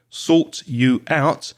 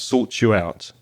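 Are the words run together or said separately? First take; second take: separately; run together. First: Each word is said separately and fully. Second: The words are linked and run together. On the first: "Notice the pronunciation"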